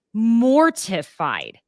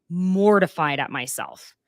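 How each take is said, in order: First: "mortified" said slowly and louder; drawn-out emphasis. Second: Said in the usual way. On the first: Real, not acted. Host stressing her shame, "mortified" drawn out and louder. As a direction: lean hard on "mortified", stretch it.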